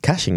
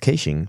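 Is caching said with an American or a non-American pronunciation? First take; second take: American; non-American. First: The word has an American pronunciation. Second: The word has a non-American pronunciation.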